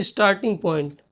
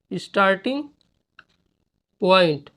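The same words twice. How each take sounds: First: Said in the usual way. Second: starting and point split by a pause. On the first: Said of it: "first take before dictation". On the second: Shown as a demonstration. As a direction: dictate starting point word by word. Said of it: "dictating word by word".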